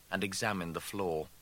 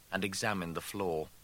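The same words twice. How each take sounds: The two takes are said the same way.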